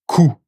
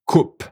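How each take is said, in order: First: Coup said as "koo", no p; silent p. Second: Coupe ending with a clear p; final p sounded. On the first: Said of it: "Final P is silence". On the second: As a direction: say coupe, popping the p. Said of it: "And now there's gonna be the P". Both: Shown as a demonstration.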